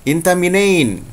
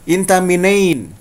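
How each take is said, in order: Both takes have the same delivery.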